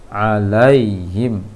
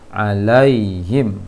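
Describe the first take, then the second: The two takes are said the same way.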